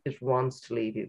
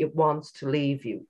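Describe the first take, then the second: First: Softer echo, stress on wants; softer repeat. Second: Said in the usual way. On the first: Shown as a demonstration. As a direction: let it sink in gently, quieter. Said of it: "repeated softer". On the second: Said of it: "repeated for emphasis".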